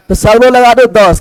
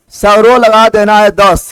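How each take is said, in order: First: Said in the usual way. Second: Slow, word by word for students; slow emphatic repeat. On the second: Shown as a demonstration. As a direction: spell it out slowly so the class catches दस.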